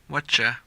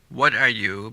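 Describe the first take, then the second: First: The phrase is squeezed into whatcha. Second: The phrase is said in full.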